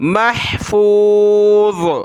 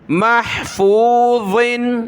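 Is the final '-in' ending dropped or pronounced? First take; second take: dropped; pronounced. First: The word ends on z without -in. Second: The word ends with a final -in sound. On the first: The reader stops on this word. "वक्फन" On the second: The word is read in connected flow. "ज़ादो ज़ेर ज़िन"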